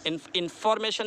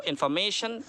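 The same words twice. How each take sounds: First: information with फॉर stressed. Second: information with मे lengthened; stress on ME. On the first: Teacher shows what not to say, stressed फॉर in information. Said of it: "नहीं बोलेंगे". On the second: Teacher gives learners the correct form, stressed मे in information. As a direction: lean on मे in information. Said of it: "मैं पर है". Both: Shown as a demonstration.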